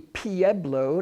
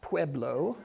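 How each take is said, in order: First: It is said with the local pronunciation. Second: It is said with a non-local pronunciation. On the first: The speaker calls it right. "I'm told it's pronounced locally" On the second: The speaker calls it wrong.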